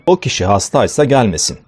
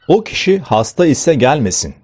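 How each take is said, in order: First: 'Hasta' and 'ise' merge into one word, 'hastaysa'. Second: 'Hasta' and 'ise' are said as separate words. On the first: "hastaysa daha kolay bir söyleyiş sunmaktadır" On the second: "Hasta ise daha zor bir söyleyişken"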